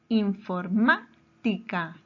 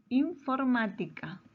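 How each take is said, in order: First: Informática slowly, broken after a punched MÁ; stress on MÁ. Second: Said in the usual way. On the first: Shown as a demonstration. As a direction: say infor-MÁ, pause, then tica. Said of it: "antepenúltima sílaba". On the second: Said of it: "Su mayor fuerza de voz está en la".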